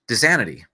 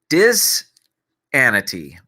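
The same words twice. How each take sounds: First: The word is said quickly. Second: The word is said at a normal pace.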